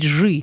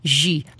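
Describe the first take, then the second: First: The vowel after zh is a back y sound. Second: The vowel after zh is a front i sound. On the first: The speaker calls it right. "Надо говорить «жи». через «ы»" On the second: The speaker calls it wrong. "Почему вы говорите «жи»?"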